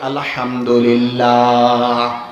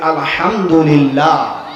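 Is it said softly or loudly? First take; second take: softly; loudly. First: It is said at normal loudness. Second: It is said more loudly.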